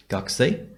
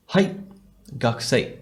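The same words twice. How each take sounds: First: "gakusei." lifted upward at the end like a question; rising question. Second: Said in the usual way. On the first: Shown as a demonstration. Teacher models asking a classmate about being a student, rising tone. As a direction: ask "gakusei." with a questioning rise. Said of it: "with a bit of a rising intonation". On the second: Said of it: "the person could respond".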